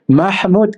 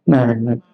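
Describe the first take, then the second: First: The h is a strong, throaty sound. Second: The h is a plain, light sound. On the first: The speaker calls it right. "Kita kan mah dengan hak pedas, bukan hak simpoi nah. Mahmud kan sedap" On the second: The speaker calls it wrong. "Mereka tak pandai Mahmud"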